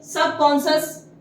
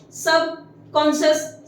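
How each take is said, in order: First: Said in the usual way. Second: Drawn out, each syllable separate; slow model word. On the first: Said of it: "repeats word at normal pace". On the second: Shown as a demonstration. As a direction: stretch the word for the class. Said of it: "teacher models word slowly".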